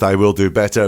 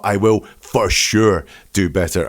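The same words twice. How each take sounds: First: Said in the usual way. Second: "for sure" set apart and stressed for emphasis. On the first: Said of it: "it's not just". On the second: Retold or imitated. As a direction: lean hard on "for sure" to convince. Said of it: "I'm turning up the severity".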